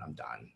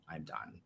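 First: Low, hushed, and drained of fight; a soft, defeated murmur to herself; quiet resignation. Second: Breathy final whisper, barely voiced. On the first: Retold or imitated. Telling a support group of the night she gave up, hushed. Suicidal thought voiced quietly. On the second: Reliving the moment she gave up, whispered to herself. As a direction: let the repeat fade into a whisper.

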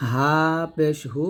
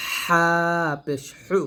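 First: Said in the usual way. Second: হা পেশ হু with h squeezed from mid-throat; pressed throat ha. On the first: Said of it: "গলার শুরু থেকে". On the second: Shown as a demonstration. Teacher contrasts two ha letters, pressed হা and হু. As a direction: tighten the throat on হা and হু. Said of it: "গলার মাঝখান থেকে চাপ দিয়ে".

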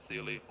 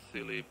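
Both takes have the same delivery.

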